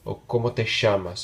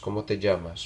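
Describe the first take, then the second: First: It is said with an Argentine accent. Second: It is said with a general Spanish accent.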